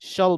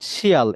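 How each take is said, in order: First: The ending is said as one syllable, shall. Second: The ending is said as two syllables, shee-al. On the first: The speaker calls it right. "shall বলবেন" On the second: The speaker calls it wrong. "not শিয়াল। এই যেটা শিয়াল বলা যাবে না"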